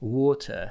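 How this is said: The word is said with a British accent. "But British say, for example, water, right?"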